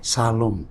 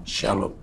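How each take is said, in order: First: The word begins with a plain s sound. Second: The word begins with a sh sound. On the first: "Kalau titiknya sebelah kiri, salom. S" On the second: "sebelah kanan, shalom. Seperti melihat si"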